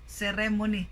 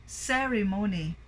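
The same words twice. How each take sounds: First: Ceremony stressed on the second syllable, RE; ceremony with RE punched instead of CE; mispronounced stress. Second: Ceremony stressed on CE at the front; stress on first syllable. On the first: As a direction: wrongly say ce-RE-mony. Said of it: "But it should be ceremony". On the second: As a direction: say CE-remony, first syllable strong. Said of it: "First syllable stress". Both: Shown as a demonstration.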